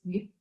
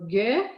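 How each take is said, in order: First: The consonant is said alone, with no vowel. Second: The consonant is followed by an added vowel sound. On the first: The speaker calls it right. "c'est juste G" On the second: The speaker calls it wrong. "je n'ajoute pas, c'est pas G"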